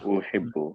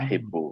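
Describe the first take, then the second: First: The first vowel is a rounded 'u' sound. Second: The first vowel is an open 'a' sound. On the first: The speaker calls it right. "the vowel on the first letter there is a dhamma" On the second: The speaker calls it wrong. "like it sounded like a fatha"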